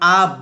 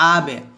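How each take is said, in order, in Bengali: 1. শেষের ব্যঞ্জনটা প্রতিধ্বনি ছাড়াই হঠাৎ থেমে যায়। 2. শেষের ব্যঞ্জনটা হালকা প্রতিধ্বনি নিয়ে ছাড়া হয়। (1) "এখন কিন্তু হামজা বা জবর আ ব বলবো না" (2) "বলবো আবে"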